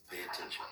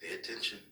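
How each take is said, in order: First: A softer whispered repeat. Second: Said in the usual way. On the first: Real, not acted. Father to son, whispered reminder. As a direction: whisper it firmly close to him.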